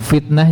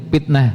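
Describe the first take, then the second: First: The word begins with an f sound. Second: The word begins with a p sound. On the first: "huruf F" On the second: "jadi P"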